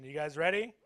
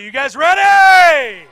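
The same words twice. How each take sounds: First: Said in the usual way. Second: Much higher, louder, slow stretched shout; hype shout. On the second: Shown as a demonstration. Comic hyping the audience for participation, stretched hype shout. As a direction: pump up the crowd. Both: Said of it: "I need some energy".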